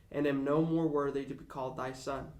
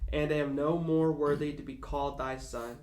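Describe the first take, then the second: The two takes are said the same way.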